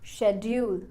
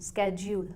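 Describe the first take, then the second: First: The word begins with an 'sh' sound. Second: The word begins with an 'sk' sound. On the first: This is the non-American pronunciation. "वरना शेड्यूल" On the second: This is the American pronunciation. "American इस word को स्केड्यूल pronounce करते हैं"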